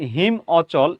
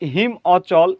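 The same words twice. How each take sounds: No difference in how they are said.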